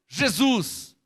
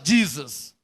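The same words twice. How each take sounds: First: The name is pronounced with Portuguese sounds. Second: The name is pronounced with English sounds. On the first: "O brasileiro" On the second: "O americano em inglês fala"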